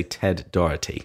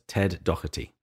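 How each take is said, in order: First: "Doherty" flapped like an American; American pronunciation. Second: "Doherty" with a crisp T, "Doh-ER-tee"; "Doherty" with a clear T sound; English pronunciation. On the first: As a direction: say "Doherty" the American way, T softened to a flap. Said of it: "since he's American, let's say Ted Doherty". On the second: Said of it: "in my English accent, I would pronounce the T". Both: Shown as a demonstration.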